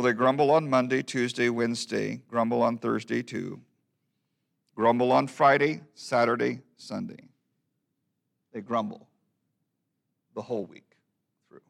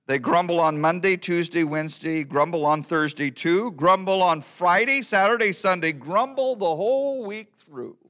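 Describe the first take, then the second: First: Subdued verse recitation. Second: Rising, building run through the weekdays; lively verse recitation. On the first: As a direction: wind down with long pauses between the last phrases. Subdued closing repeat of the verse. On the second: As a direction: recite it briskly, climbing higher towards the weekend. First take of the weekday verse. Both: Acted.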